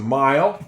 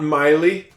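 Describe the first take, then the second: First: The final E is silent, giving one syllable. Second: The final E is sounded as an extra syllable. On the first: The speaker calls it right. "It's a mile. Silent E" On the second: The speaker calls it wrong. "That's not Miley"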